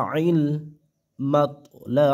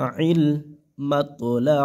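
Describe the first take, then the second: The two takes are said the same way.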